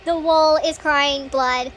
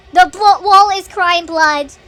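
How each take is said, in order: First: Slow, level restatement; slow repeat. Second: Loud, slow, drawn-out exclamation; alarmed outburst. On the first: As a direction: say it slowly without raising the voice. Repeats it more calmly. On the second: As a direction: call it out loudly, stretching each word. Reacting to blood on wall. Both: Real, not acted.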